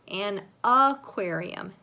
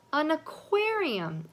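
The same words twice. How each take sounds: First: Kind correction. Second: Said in the usual way. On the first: A narrator's reading. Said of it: "corrected him in a kind voice". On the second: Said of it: "A J explained".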